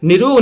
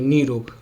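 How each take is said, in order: First: The first vowel is short. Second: The first vowel is long. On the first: The speaker calls it wrong. "निरोग नहीं बोलोगे" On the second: The speaker calls it right. "नी रोग बोलोगे"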